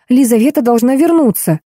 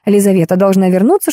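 First: Mild, higher-pitched cry of insistence; yelling. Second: Said in the usual way. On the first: A narrator's reading. Woman tells friend's mother on the phone, mildly yelling. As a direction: insist urgently, a restrained yell. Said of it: "заорала я".

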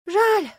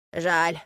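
First: High, loud wail of regret; a whole stable lamenting in unison; sighed lament. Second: Put-on old horse sighing with regret; short regretful word at a usual pitch. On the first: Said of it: "вздохнула конюшня, и удивительно синхронно". (высокий, громкий хоровой вздох сожаления) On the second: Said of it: "вздохнула старая лошадка". (сожалеющий вздох старой лошадки) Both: A narrator's reading.

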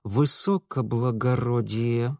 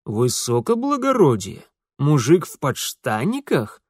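First: Through teeth. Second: Mocking. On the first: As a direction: spit «Высокоблагородие» through clenched teeth. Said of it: "процедил Митя". (процедил сквозь зубы «Высокоблагородие») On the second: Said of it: "насмешливо скривился исправник". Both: A narrator's reading.

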